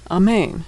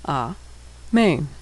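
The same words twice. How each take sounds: First: Said in the usual way. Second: Syllable by syllable. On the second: Shown as a demonstration. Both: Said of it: "and final nun".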